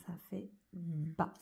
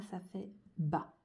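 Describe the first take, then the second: First: A slow hushed Ça fait bas; whispered. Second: Slow blending. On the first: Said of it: "teacher repeats syllable softly". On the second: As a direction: slowly blend ça fait bas. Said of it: "teacher blends letters into syllable". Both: Shown as a demonstration.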